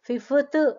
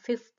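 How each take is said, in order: First: The final consonants are split up, not clustered. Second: The final consonants are run together as a cluster. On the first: The speaker calls it wrong. "అనట్లేదు మనం" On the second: The speaker calls it right. "అంటున్నాము కాబట్టి ఇక్కడ cluster"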